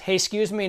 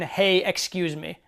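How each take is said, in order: First: It is said casually and low-key. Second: It is said with eager, effortful emphasis.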